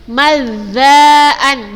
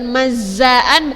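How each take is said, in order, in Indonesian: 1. Konsonan tengah dibuat di ujung lidah. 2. Konsonan tengah terdengar seperti z biasa. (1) "walakin mazzaan di ujung lidah zanya" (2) "bukan mazzaan"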